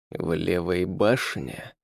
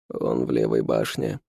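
First: Slow, quiet menacing hiss. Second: Servant's voice, pitched low. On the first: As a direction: hiss it slowly, fangs bared. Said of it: "прошипел он". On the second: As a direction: answer low and humble, like a servant. Servant answers the count. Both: A narrator's reading.

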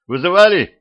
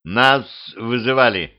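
First: High, loud call through the door. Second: Said in the usual way. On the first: A narrator's reading. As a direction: raise your voice to be heard. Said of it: "громко сказал он".

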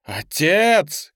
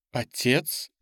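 First: Loud, higher shout of ОТЕЦ; urgent shouted ОТЕЦ; crying out. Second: Hesitant question with ОТЕЦ rising; ОТЕЦ as an uncertain, rising question. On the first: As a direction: cry ОТЕЦ out in alarm, falling at the end. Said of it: "крикнула Ли". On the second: Ли повторяет вопрос, отец молчит. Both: A narrator's reading.

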